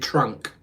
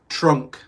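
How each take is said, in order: First: It is said with a southern English 'ah' vowel. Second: It is said with a northern English 'uh' vowel. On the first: "If I was southern English, I'd say trunk" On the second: "I have a northern accent, so I say uh for stuff rather than ah"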